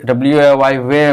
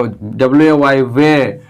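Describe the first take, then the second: First: Said in the usual way. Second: Slow spelling out. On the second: Shown as a demonstration.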